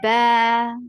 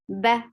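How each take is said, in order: First: The vowel is long, two counts. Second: The vowel is short, one count. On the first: "Now with Alif, it has become Ba" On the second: "without Alif, that was Ba with Fatha"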